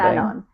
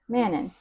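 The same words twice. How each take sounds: First: The name is said with a French pronunciation. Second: The name is said with an English pronunciation. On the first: "he was pronouncing it like Manon ... that's probably the correct way to say it" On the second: "my accent says Manon"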